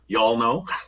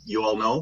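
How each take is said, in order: First: It is said in a put-on Southern drawl. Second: It is said in the speaker's normal accent.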